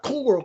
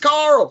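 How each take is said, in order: First: The name sounds like the word coral. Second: The name sounds like a one-syllable Carl. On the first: The speaker calls it wrong. "he's doing it wrong because it's not Coral, Coral. He's saying like Coral Reef" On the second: The speaker calls it right. "It's Carl, Carl. That's real Southern"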